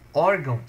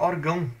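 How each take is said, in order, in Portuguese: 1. A tônica está na primeira sílaba. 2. A tônica está na última sílaba. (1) "O acentuado" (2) "o tio vai puxar para o mais forte"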